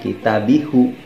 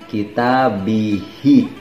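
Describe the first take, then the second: First: The pronoun ends with a 'u' vowel. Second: The pronoun ends with an 'i' vowel. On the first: The speaker calls it wrong. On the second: The speaker calls it right. "hanya itu harus dikasrohkan"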